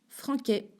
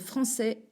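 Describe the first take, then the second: First: The middle consonant is a k sound. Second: The middle consonant is an s sound. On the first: The speaker calls it wrong. "sinon on dit Franquais" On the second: The speaker calls it right. "avec une C D I"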